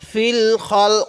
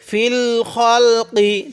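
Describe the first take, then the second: First: The phrase ends on a consonant, vowel dropped. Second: The phrase ends with a final vowel sound. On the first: The reader stops at this word. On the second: The reading continues without stopping.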